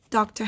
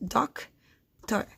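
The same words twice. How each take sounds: First: Said in the usual way. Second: "doctor" as "doc ... tor", long gap between; doctor, one syllable at a time; split into syllables. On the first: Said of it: "Doctor has two syllables". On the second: Shown as a demonstration. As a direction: break doctor slowly in two. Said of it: "to find the syllables".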